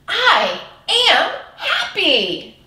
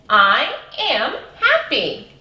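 First: It is said in an excited way. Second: It is said in a plain, calm way.

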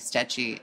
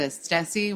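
First: The middle consonant is pronounced as ch. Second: The middle consonant is pronounced as s. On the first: The speaker calls it right. "I think it might be Stechi" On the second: The speaker calls it wrong. "which I'm pronouncing wrong"

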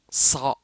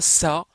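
First: The s sound is heavy and emphatic. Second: The s sound is plain and light. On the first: The speaker calls it right. "mais c'est ça. Vous avez la bouche pleine" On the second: The speaker calls it wrong. "C'est pas ça"

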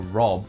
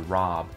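First: It is said in an Australian accent. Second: It is said in an American accent. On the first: "your Rob for Australia" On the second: "turns into Rob"

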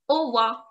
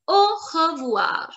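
First: The middle 're' syllable is dropped. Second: The middle 're' syllable is fully pronounced. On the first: "They remove R-E in pronunciation" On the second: "this is how we write, and sometimes we say this also"

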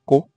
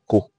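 First: The word is said on a high tone. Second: The word is said on a mid tone. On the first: It is the name of a community. "A high tone is used in such way as Ko" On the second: It means wrapped, in the past. "you can use a mid tone on Ko"

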